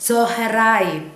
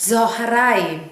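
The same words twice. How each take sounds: The two takes are said the same way.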